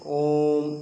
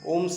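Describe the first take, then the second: First: The word is drawn out with a gap inside. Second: The word is said straight through without a gap. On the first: The speaker calls it right. "ओम में gap करते हैं, जैसे ओम इस तरह से बोलते हैं" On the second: The speaker calls it wrong. "ओम सीधे नहीं बोलते हैं"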